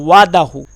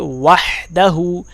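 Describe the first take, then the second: First: The h sound after the first vowel is dropped. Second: The h sound after the first vowel is clear. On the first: The speaker calls it wrong. "अक्सर लोग यहाँ पर तीसरी गलती करते हैं" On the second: The speaker calls it right. "हा को बिल्कुल सही अदा करना है"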